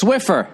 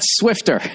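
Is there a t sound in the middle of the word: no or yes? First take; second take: no; yes. First: It is said without a t sound. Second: It is said with a t sound. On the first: The speaker calls it right. "it's Swiffer" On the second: The speaker calls it wrong. "not Swifter"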